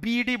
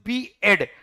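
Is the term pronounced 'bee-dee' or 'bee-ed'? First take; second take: bee-dee; bee-ed. First: It is run together as 'bee-dee'. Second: It is said as 'bee' then 'ed'. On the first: The speaker calls it wrong. "Please don't pronounce English student मो student ताकू बीडी बोली जमा कहब नाही" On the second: The speaker calls it right. "It is बीएड"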